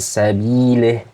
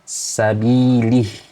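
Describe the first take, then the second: First: The kasrah vowel is an open 'eh' sound. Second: The kasrah vowel is a clear 'ee' sound. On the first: The speaker calls it wrong. "tidak sempurna dalam mengucapkan kasroh" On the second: The speaker calls it right. "kasroh dibacanya i"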